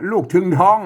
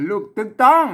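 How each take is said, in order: First: ถึงท้อง with aspirated th sounds; Central Thai misreading. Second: ตึงต้อง with unaspirated t sounds; hard t on both ตึง and ต้อง, no puff, pitched higher; Northern Thai reading. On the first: Teacher showing learners the mistaken general reading, aspirated ถึงท้อง. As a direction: puff both initials in ถึงท้อง, as in standard Thai. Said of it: "ไม่ใช่คนอันมาอ่านทั่วไป". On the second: Teacher correcting the general reading, unaspirated ตึงต้อง. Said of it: "ไม่ใช่นะ". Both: Shown as a demonstration.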